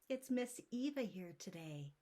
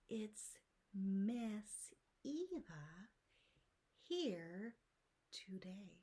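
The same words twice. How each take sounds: First: It is spoken at a quick pace. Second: It is spoken at a slow pace. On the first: "one time quick" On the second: "Let me say that again, slower"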